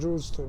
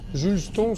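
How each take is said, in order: First: The name is pronounced the English way. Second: The name is pronounced the French way.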